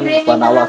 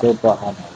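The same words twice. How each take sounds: First: It is said quickly without calm. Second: It is said softly and calmly.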